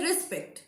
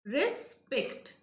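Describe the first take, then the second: First: Said in the usual way. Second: "respect" split into res... pect; a clear break in the middle of "respect"; syllable by syllable. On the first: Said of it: "we are pronouncing at a stretch". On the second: Shown as a demonstration. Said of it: "you can differentiate it if you want".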